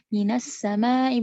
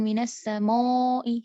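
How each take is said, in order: First: The long a vowel sounds thin and light. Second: The long a vowel sounds thick and heavy. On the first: The speaker calls it right. "huruf alif ini akan menipis kalau misalnya didahului oleh huruf yang tipis" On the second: The speaker calls it wrong.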